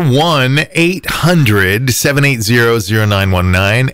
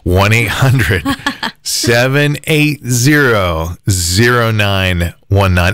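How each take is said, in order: First: The number is said quickly. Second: The number is said slowly.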